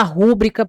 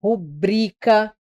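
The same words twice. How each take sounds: First: Rúbrica said as RÚ-brica; wrong first-syllable stress. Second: Rubrica slowly as ru-BRI-ca; stress on middle syllable. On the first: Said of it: "não vai falar rúbrica por aí". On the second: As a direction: split rubrica and lean on bri. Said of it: "Você não vai falar rúbrica". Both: Shown as a demonstration.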